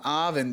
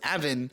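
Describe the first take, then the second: First: The first vowel is a long A. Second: The first vowel is a short A. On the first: "the long A" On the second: "everyone says Avin"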